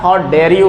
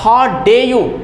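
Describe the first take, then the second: First: The r sound in dare is pronounced. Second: The r sound in dare is dropped. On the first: The speaker calls it right. "How डेयर you है" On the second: The speaker calls it wrong. "Film में बोला जाता है how डे you"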